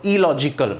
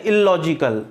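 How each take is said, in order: First: इलॉजिकल with one short l, "i-logical"; correct single l. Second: इलॉजिकल with a held double l, "ill-logical"; wrong doubled l. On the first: Teacher models the correct single l. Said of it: "उसको एक ही बार pronounce करो". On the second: Teacher mimics common wrong pronunciation. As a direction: lean on the l in इलॉजिकल twice. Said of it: "double एल जो होता है उसको एक ही बार". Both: Shown as a demonstration.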